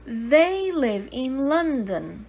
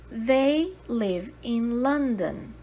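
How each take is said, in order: Both takes have the same delivery.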